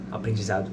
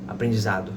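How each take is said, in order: Both takes have the same delivery.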